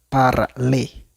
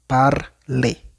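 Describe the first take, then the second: The two takes are said the same way.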